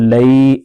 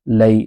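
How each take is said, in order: First: The vowel is stretched out long. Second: The vowel is kept short and soft. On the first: The speaker calls it wrong. "इसको लई ऐसे खींच के नहीं पढ़ देना" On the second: The speaker calls it right. "इसको बगैर खींचे बगैर झटका दिए नरमी से मारूफ पढ़ना है।"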